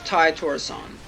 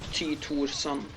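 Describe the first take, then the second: First: The name is pronounced the English way. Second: The name is pronounced the Norwegian way. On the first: "I generally always pronounce names in the English way" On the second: "if I was actually going for pronouncing his name in the, in the native way"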